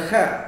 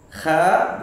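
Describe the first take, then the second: First: It is said light, without the tongue back raised. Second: It is said heavy, with the tongue back raised. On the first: The speaker calls it wrong. "bukan kha" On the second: The speaker calls it right. "pangkal lisan yang naik"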